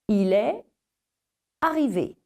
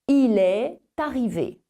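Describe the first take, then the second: First: The words are said apart with no linking sound. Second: A t sound links est to arrivé. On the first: "s'ils sont pris séparément, eh bien ces mots se prononcent sans ce phonème supplémentaire" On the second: "les mots unis se prononcent avec ce phonème"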